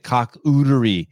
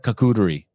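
First: The word is said at a slower pace. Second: The word is said at a faster pace.

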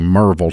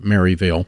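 First: It is said the local Tennessee way, clipped. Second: It is said the Yankee way, fully spelled out.

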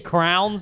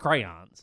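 First: The word is squeezed into one syllable. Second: The word is said with two syllables. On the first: This is a casual way some people say it. The speaker calls it wrong. "I say crowns sometimes" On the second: This is the standard way to say it. The speaker calls it right. "but it's crayons"

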